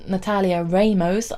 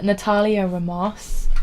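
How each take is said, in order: First: Natalia Ramos with short "a" in Natalia, RAY-mohs; website's pronunciation. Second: Natalia Ramos with "ah" in Natalia and Ramos; speaker's own pronunciation. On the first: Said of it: "according to how to pronounce dot com is". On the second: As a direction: say "Natalia Ramos" slowly, Ramos as ruh-MAHSS. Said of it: "not sure if I'm about to pronounce her name properly". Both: Shown as a demonstration.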